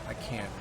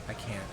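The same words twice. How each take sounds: The two takes are said the same way.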